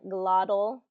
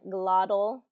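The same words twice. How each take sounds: First: The T is pronounced like a soft D. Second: The T is pronounced like a soft D.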